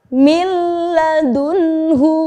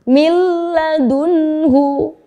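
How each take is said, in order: No difference in how they are said.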